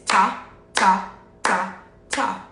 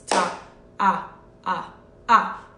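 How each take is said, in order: First: Four separate, crisp "ta" syllables; quarter-note counting. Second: "Ta" carried on through "ah, ah, ah"; whole-note counting. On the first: Teacher contrasts quarter notes with whole note, separately struck counting. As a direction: give every beat its own "ta". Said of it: "it would sound like this". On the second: Teacher shows one long sound, whole-note counting. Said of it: "long sound over four beats". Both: Shown as a demonstration.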